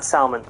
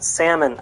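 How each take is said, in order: First: The L sound is pronounced in the word. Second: The L sound is silent in the word. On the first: The speaker calls it wrong. "not salmon" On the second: The speaker calls it right. "I forget the L is silent"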